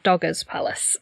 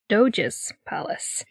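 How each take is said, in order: First: The first word has a hard g sound. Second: The first word has a soft j sound. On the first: The speaker calls it wrong. "Not the Dogger's Palace" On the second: The speaker calls it right. "According to the Google Translate lady"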